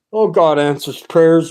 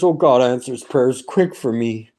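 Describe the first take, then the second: First: Said in the usual way. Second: Lower, hushed repeat. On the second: Real, not acted. To his listeners about answered prayer, a lower awed repeat. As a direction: drop the pitch and say it again to yourself.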